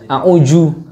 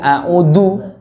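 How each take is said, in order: First: The middle consonant is a j sound. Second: The middle consonant is a plain d sound. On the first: "yang a'uju apalagi udah jauh banget itu" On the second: "nggak boleh a'udu, du. Nah, itu dari jadinya huruf dal"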